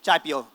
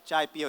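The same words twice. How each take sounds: First: It is said forcefully in a flat tone. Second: It is said softly and gently. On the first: A blunt order to drink tea. "He's like chai pio, usually very monotone, usually speaks very forcefully" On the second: A warm, polite invitation to drink tea. "it's not like chai pio"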